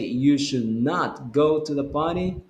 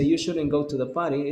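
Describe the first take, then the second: First: The negative is said in full as two words. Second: The negative is contracted into one short word. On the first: It warns that something could happen there. "You're emphasizing a lot" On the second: It is a simple, normal suggestion. "it's a simple and normal suggestion"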